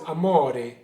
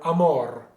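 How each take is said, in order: First: Amore with the final E sounded; full word ending. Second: Amor ending on the r, no final E; truncated ending. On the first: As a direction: say all three syllables of amore, stressing MO. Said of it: "Well, the word is amore". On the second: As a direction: stress amor on MOR and stop at the r. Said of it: "cut the last E off". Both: Shown as a demonstration.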